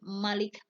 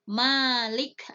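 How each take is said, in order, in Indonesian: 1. Vokal pertama dibaca pendek. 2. Vokal pertama dibaca panjang. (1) "Kalau Malik pendek itu yang menguasai" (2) "Kalau panjang itu yang memiliki"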